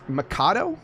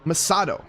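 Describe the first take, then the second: First: The c is said like a k. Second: The c is said like an s. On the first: The speaker calls it wrong. "I've been saying it with the Mikado" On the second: The speaker calls it right. "Soft C"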